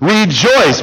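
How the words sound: The word is said with a smile, sounding joyful. "now say it with a smile on your face"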